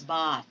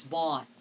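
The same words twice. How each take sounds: First: "bought" with an open, unrounded ah; open vowel in bought. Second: "bought" with a long, rounded aw. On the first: Teacher contrasting two look-alike words, "bought" with open ah. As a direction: say "bought" with ah, as in bot. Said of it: "But this one is bought". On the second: Teacher contrasting two look-alike words, "bought" with rounded aw. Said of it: "this one is bought". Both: Shown as a demonstration.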